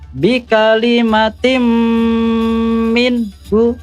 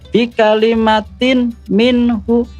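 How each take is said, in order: First: The n merges into a doubled m sound. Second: The n is pronounced separately before m. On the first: The speaker calls it right. "Yang benar adalah" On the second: The speaker calls it wrong. "Itu contoh bacaan yang salah"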